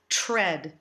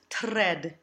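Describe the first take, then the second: First: The tr sounds like a ch sound. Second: The r after the t is rolled. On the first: "Nor do we want to do the colloquial CH sound" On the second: "We don't want to roll these R's"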